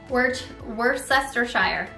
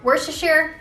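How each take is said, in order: First: Every written syllable is pronounced as spelled. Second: Some syllables are dropped in a shortened form. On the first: The speaker calls it wrong. "That's what it looks like, but I don't think that's right" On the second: The speaker calls it right. "I feel like people say it like that"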